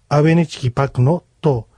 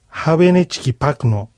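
First: The word begins with no h sound. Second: The word begins with an audible h sound.

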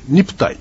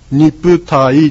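First: The ending is one smooth gliding syllable. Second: The ending splits into two separate vowels. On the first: The speaker calls it right. "愛一文字ですね、イエスとかの愛一文字ですので" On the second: The speaker calls it wrong. "ニプタイじゃなくて"

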